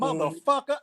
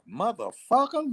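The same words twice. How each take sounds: First: It is said in a hostile, threatening tone. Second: It is said in an admiring, impressed tone. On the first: It is an insult. "I will kick your ass" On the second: It is a compliment. "look at that shit. That's a bad motherfucker"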